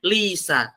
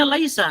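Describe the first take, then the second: First: Lisa with a short plain "i" and no "ai"; the mistaken way: lisa, the diphthong squeezed to a flat "i"; wrong reading lisa. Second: Laisa said with a clear "ai", lai-sa; the right way: laisa, two clear vowels lai then sa; correct reading laisa. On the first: Teacher shows students the misreading, flattened lisa. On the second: Teacher shows students the right reading, clear laisa. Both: Shown as a demonstration. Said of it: "nggak mungkin bacanya lisa".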